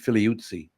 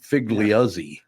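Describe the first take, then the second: First: The surname is said with its original sounds. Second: The surname is said with Americanized sounds. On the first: "that's how you would pronounce the name" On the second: "Americanized would be"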